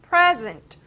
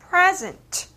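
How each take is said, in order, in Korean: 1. 강세는 첫 번째 음절에 있어요. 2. 강세는 첫 번째 음절에 있어요.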